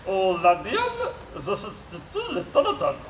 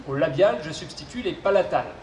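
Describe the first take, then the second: First: Robot voice with garbled consonants. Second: Said in the usual way. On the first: Acted. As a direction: mangle the consonants like a glitchy robot. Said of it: "souffre d'une pathologie vocale". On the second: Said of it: "je serai son interprète".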